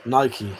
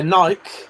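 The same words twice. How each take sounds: First: Nike as NY-kee, dropping softer; Nike in two syllables, ending kee; weirdos' Nike. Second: Nike as one syllable; Nike with a silent E; own Nike pronunciation. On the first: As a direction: say Nike to rhyme with spiky. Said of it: "weirdos say". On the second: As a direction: say Nike to rhyme with bike. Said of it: "I say Nike". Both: Shown as a demonstration.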